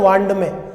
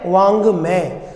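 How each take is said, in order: First: The nasal before 'may' sounds like 'nd'. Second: The nasal before 'may' sounds like 'ng'. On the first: The speaker calls it wrong. "कई लोग तो इसको ये पढ़ते हैं वांड में" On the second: The speaker calls it right. "जबकि शुद्ध उच्चारण है वांग में"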